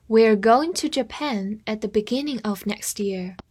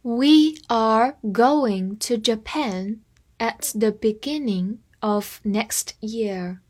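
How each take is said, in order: First: Said in the usual way. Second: Half-speed careful reading; deliberate classroom pace; slowed down. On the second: Shown as a demonstration. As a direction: read it slowly, word by word. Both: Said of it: "我们放慢速度".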